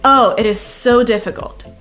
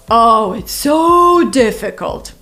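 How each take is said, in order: First: It sounds sincere and genuinely troubled. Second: It sounds sarcastic and mocking. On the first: The task really is difficult. "Which means, yeah, it's difficult" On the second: The task is not difficult at all.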